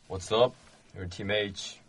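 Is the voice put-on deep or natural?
deep. The voice is pushed artificially low and deep.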